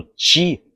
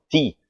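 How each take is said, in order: First: "ti" as "tchee", tongue on hard palate; palatal "tch". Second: "Ti" with tongue tip behind upper teeth; pure dental t. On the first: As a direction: say "ti" with a big ch sound. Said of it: "o dorso da minha língua". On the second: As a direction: say "Ti" as "tee", no ch. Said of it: "a ponta da minha língua bate". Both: Shown as a demonstration.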